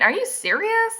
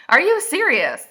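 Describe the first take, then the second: First: High-pitched questioning disbelief; incredulous. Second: "you" leaps high and loud, then falls; emphatic disbelief. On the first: Reader appalled at heroine's rejections, incredulous question. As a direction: ask "are you serious" high, in disbelief. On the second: Reader repeats her challenge to heroine, emphatic disbelief. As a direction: punch "you" in "Are you serious". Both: Real, not acted.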